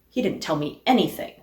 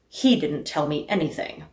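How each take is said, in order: First: The word "anything" carries the main stress. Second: The word "he" carries the main stress. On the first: The speaker is frustrated at learning nothing. "Or that he didn't tell me anything, and I am frustrated by the lack?" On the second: Someone else told me instead. "Is the point that he didn't tell me anything, but somebody else did?"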